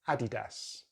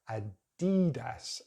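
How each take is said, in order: First: The stress is on the first syllable. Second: The stress is on a later syllable. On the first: "I believe it should be Adidas" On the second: "Americans pronounce it in a different way, they changed the stress"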